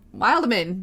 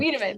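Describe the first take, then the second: First: The name is said like 'wild man'. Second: The name is said like 'Wiedemann'. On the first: "Did I say that right?" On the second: "My my name's Wiedemann"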